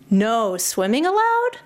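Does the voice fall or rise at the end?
rise. The voice rises at the end of the phrase. The sign is read as a question that doubts the ban.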